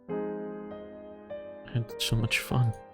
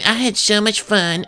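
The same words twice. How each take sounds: First: It is read in the speaker's normal voice. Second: It is read in a put-on character voice.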